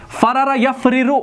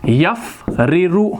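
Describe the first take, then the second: First: Said in the usual way. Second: यफ़रिरु stretched out slowly, syllable by syllable; slow dictation. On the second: Shown as a demonstration. Teacher dictating the verb to students, slow and drawn out. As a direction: draw out यफ़रिरु so students can write it. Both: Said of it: "तो हम यहाँ पर लिखेंगे".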